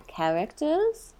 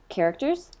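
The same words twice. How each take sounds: First: "characters" drawn out slowly, rising high at the end; "characters" playfully stretched. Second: Said in the usual way. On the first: Pretend. Host toys with the topic word, "characters" playfully drawn out. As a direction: stretch "characters" in a silly put-on way.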